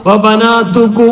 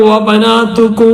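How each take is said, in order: First: The word ends on an open vowel. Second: The same.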